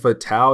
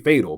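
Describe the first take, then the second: First: The name is pronounced the French way. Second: The name is pronounced the English way. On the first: "she is French, I want to say... In French, they say it like that" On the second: "I could be wrong, could be Fatal"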